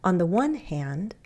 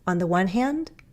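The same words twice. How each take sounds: First: The pitch dips down and then rises. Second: The pitch simply rises toward the end. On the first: "another pattern that I commonly use is that fall rise" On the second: "Some people will go up"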